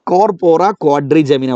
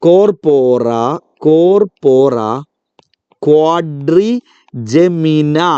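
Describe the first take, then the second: First: Said in the usual way. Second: Corpora, corpora, then quadrigemina, each piece drawn out with pauses; broken-up slow drill. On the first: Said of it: "ഒന്നുകൂടെ പറഞ്ഞേ". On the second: Shown as a demonstration. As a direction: break the name into chunks for children. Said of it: "നല്ല പേര് അല്ലേ?".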